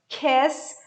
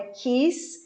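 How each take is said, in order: First: The vowel is said open. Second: The vowel is said closed. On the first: The speaker calls it right. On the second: The speaker calls it wrong. "não é"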